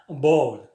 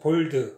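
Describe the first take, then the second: First: It is said with an American accent. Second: It is said with a Korean accent. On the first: "미국 사람들이 항상 bold, bold 이렇게 돼요" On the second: "한국 사람들이 볼 때는 볼드라고 생각하죠"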